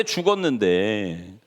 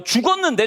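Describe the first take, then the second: First: 죽었는데 drawn out slowly, dropping low and soft; 죽었는데 slowly and heavily, voice falling quiet; slow, quiet repeat. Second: Said in the usual way. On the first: Shown as a demonstration. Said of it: "repeated slowly".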